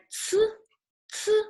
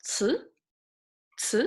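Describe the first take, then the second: First: "Ci" high and level with an aspirated ts; open-teeth ci. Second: "ci" rising in pitch after an airy ts; second tone. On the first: Teacher demonstrating teeth position to students, open-teeth ci. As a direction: push air through "Ci", teeth not touching. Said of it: "Your teeth are not touching together". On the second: Teacher drilling tones with students, rising second tone. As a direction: lift "ci" upward like a brief question. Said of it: "Second tone". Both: Shown as a demonstration.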